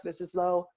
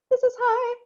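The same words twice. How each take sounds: First: Low chest-voice demo; low pitch. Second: Very high demo voice; high pitch. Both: Shown as a demonstration.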